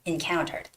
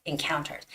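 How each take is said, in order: First: The stress is on the second syllable. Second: The stress is on the second syllable.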